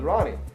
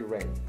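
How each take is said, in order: First: The name is said as two syllables. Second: The name is said as one syllable. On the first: The speaker calls it wrong. "mispronounced it as Ronnie" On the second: The speaker calls it right. "Her name is actually Rain"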